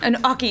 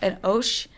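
First: The word ends with a 'kee' sound. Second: The word ends with an 'sh' sound.

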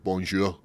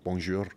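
First: The R is rolled harshly in a Scottish way. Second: The R is rolled softly in a French way. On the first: It sounds like starting a fight. "when Scottish do it, it's like bonjour. It sounds really aggressive" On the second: It sounds fancy and pleasant. "Or French, roll their R's as well, like bonjour. Like it sounds really nice"

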